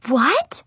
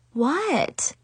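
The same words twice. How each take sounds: First: Rising shocked "what?"; stunned question lifting at the end; gasped. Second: Higher, offhand "what?" that falls; falling, dismissive question; shrugging what. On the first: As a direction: gasp the question, pitched up. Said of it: "Chloe and Zoe gasped". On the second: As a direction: play innocent with a verbal shrug. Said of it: "I shrugged at her". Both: A narrator's reading.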